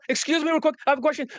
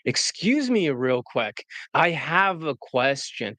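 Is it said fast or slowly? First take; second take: fast; slowly. First: It is said fast and hurried. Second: It is said slowly and evenly.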